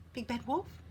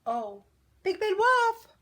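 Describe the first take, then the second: First: Softer, questioning rise; gentle address. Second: High, loud, drawn-out holler; calling out. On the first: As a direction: address softly, leading into an invitation. Duck gently addresses wolf before inviting. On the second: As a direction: call after someone walking away. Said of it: "called Missus Duck". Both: A narrator's reading.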